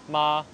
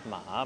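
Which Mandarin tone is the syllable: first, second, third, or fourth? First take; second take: first; third. First: The syllable has a high level tone. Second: The syllable has a low dipping tone.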